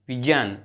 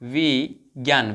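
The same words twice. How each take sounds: First: The cluster is said with a j-like sound. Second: The cluster is said with a g-like sound. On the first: This is the pure pronunciation. The speaker calls it right. "शुद्ध उच्चारण विजय विज्ञान ऐसे करना है" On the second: This is how people usually say it. The speaker calls it wrong. "जैसे हम क्या करते हैं"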